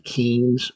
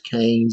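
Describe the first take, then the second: First: The name does not rhyme with 'brains'. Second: The name rhymes with 'brains'. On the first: The speaker calls it wrong. "it looks like you'd pronounce this name maybe Keynes" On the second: The speaker calls it right. "I promise you it's Keynes. It rhymes with brains"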